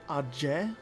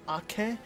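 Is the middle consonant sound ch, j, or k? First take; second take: j; k. First: The middle consonant is a j sound. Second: The middle consonant is a hard k sound. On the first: The speaker calls it wrong. "what are you doing with the J in there?" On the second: The speaker calls it right. "I've always called it Ake"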